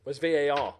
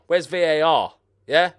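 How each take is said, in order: First: Said in the usual way. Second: Indignant shout for the video referee; louder the second time, demanding. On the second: Real, not acted. Gamer at the screen shouts for VAR, indignant. Same question repeated louder.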